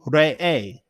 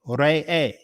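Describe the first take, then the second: First: The name is said as Re'e. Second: The name is said as Re'e.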